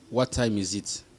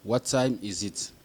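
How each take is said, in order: First: Said in the usual way. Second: Slow repeat. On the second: Shown as a demonstration.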